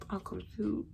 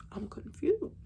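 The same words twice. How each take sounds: First: Said in the usual way. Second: Breathy whisper, a little higher. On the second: Retold or imitated. Retelling her shock to viewers, she drops to a whisper. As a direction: whisper it to yourself, dazed.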